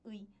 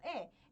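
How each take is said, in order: First: The particle is said as a gliding 'ui' sound. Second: The particle is said as a single 'e' vowel. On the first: "muito mais comum do que eu pronunciar como 의" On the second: "permite eu pronunciar a partícula de posse como e"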